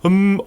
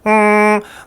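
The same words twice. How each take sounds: First: The hum sounds heavy, dark and pressed down. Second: The hum sounds bright, nasal and whiny. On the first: The speaker calls it wrong. "눌리듯이 무겁게 미음 받침으로 음 어둡게 허밍" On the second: The speaker calls it right. "세상 찡찡대는"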